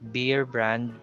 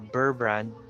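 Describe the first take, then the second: First: The first word sounds like beer. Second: The first word sounds like burr. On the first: "it's not beer brand" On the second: "or Burr brand"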